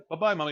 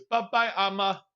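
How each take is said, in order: First: Said in the usual way. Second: Imitating toddler. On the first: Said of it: "I got him today ... to say". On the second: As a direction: copy the toddler's proud higher "Bye-bye, Amma". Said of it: "He goes".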